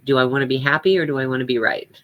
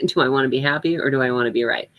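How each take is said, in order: First: Said in the usual way. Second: Fast repeat with a laugh at the start; chuckle, then rattle the mantra off quickly. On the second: Shown as a demonstration. Woman repeating her old mantra to herself, laughing. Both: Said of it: "my mantra was always".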